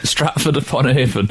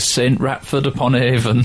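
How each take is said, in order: First: The name begins with one syllable, 'Strat'. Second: The name begins with 'Saint', then 'Ratford'. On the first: The speaker calls it right. "the correct way" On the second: The speaker calls it wrong. "regarding mispronunciations"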